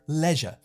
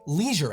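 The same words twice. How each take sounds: First: The first vowel is like the one in pleasure. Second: The first vowel is like the one in seize. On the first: "In the U K, ... It rhymes with pleasure" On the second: "in America, ... The word rhymes with seizure"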